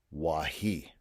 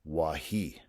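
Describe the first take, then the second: First: Wahi with stress on hi; Lakota word wahi. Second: Wahi stressed on hi, second syllable; Lakota word wahi. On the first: Teacher modelling Lakota wahi, stress on the last syllable. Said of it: "it takes the stress". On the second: Teacher repeating Lakota Wahi for students, stress on hi. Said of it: "so that shows that it takes the stress". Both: Shown as a demonstration.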